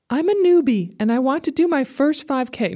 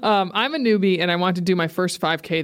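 First: It is read in a put-on character voice. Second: It is read in a natural speaking voice. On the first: "Can I read it in a voice, a different voice?" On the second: "I can't do it. I can't sustain it"

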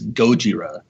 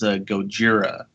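First: The stress is on the first part, go. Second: The stress is on the last part, jira. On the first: The speaker calls it right. "with the accent on the go rather than the Jira" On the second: The speaker calls it wrong. "everybody always says Gojira, but that's not correct"

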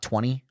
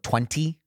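First: The second T sound is dropped. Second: The second T sound is clearly pronounced. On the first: "It drops that second T sound" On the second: "You ever talk to someone at the cash register and hear them use the word 20?"

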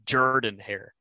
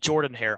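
First: Jordan is pronounced in a Southern way. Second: Jordan is pronounced in a standard, non-Southern way. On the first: The speaker calls it right. "It's a very southern way of pronouncing Jordan" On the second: The speaker calls it wrong. "You said Jordan-Hare"

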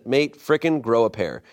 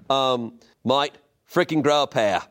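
First: It is read in the speaker's usual accent. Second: It is read in an Australian accent. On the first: The speaker calls it wrong. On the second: The speaker calls it right.

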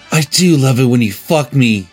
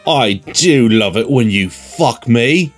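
First: It is said in the reader's ordinary voice. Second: It is said in a snooty British accent.

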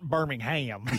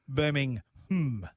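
First: The last syllable is a full 'ham' sound. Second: The last syllable is a reduced 'um' sound. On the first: This is the name of the city in Alabama. "Not Birmingham" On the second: This is the name of the town in the UK. "there is a Birmingham in the UK, but that's Birmingham"

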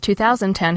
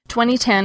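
First: The year is said in four syllables. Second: The year is said in three syllables. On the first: "whereas 2010 has 4" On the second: "2010 has 3 syllables"

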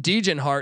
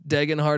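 First: The name is said with an altered pronunciation. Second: The name is said with its usual pronunciation. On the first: The speaker calls it wrong. "I like to pronounce this guy's name wrong on purpose" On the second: The speaker calls it right. "I know it's Degenhart"

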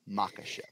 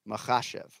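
First: The 'kh' is a plain hard k. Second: The 'kh' is a throaty, rasping sound. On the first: The speaker calls it wrong. "Not Makhachev" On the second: The speaker calls it right. "Anytime you see KH, it's a"

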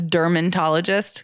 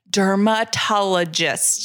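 First: An extra n sound comes before the middle syllable. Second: The middle is a plain a sound, no n. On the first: The speaker calls it wrong. "I thought it was dermatologist because that's how everyone says it" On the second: The speaker calls it right. "make sure you do it with an A"

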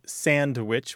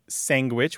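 First: It is said the standard way, ending in witch. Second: It is said with a g sound after the n. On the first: "which is standard" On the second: "which you point out"

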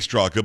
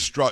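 First: The name ends with an extra vowel syllable. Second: The name is one syllable with no final vowel. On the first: The speaker calls it wrong. "Everybody's going to say Straka" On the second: The speaker calls it right. "but it is Strock"

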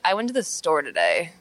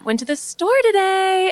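First: It is said in a low voice. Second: It is said in a high voice.

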